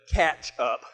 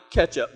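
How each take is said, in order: First: "catch up" with a clear open a in "catch"; careful pronunciation. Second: "catch up" said as "ketchup"; ketchup pronunciation. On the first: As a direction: say "catch up" lower, with a as in cat. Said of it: "but catch up". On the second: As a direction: say "catch up" with an e, like the condiment. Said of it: "Not catch up, but catch up". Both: Shown as a demonstration.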